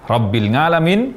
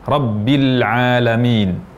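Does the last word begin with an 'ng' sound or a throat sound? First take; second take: ng; throat sound. First: The last word begins with an 'ng' sound. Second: The last word begins with a throat sound. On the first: The speaker calls it wrong. "terucap dengan salah Rabbil Ngalamin" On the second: The speaker calls it right. "Yang benar Rabbil Alamin"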